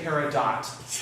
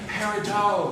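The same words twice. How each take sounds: First: The final T is clearly sounded. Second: The final T is silent, ending in oh. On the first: The speaker calls it wrong. "please don't say peridot. That is so not" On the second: The speaker calls it right. "Say peridot, which is so, oh"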